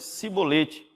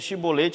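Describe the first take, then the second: First: The word begins with an s sound. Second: The word begins with a sh sound. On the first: This is how the Ephraimites said it. The speaker calls it wrong. "eles diziam cibolete" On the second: This is the word as it should be said. The speaker calls it right. "Em vez de chibolete"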